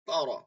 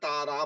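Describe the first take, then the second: First: The r is said heavy and full. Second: The r is said thin and light. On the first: The speaker calls it right. "মোটা পড়তে হয় আলাম তারা" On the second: The speaker calls it wrong. "তারা বলা যাবে না"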